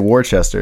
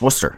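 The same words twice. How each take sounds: First: The word is pronounced following its full spelling. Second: The word is pronounced in a shortened form. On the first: The speaker calls it wrong. "I used to say Worcester" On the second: The speaker calls it right. "no, it's just it's Worcester"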